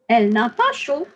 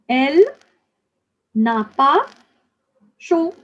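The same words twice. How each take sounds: First: It is said at normal speed. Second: It is said slowly.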